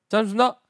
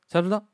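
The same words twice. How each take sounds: First: The phrase is clipped with syllables dropped. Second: The phrase is so short it is barely audible. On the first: The speaker is a corporal. "상병으로 가게 되면" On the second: The speaker is a sergeant. "병장까지 가면 이제 거의 안 들리죠"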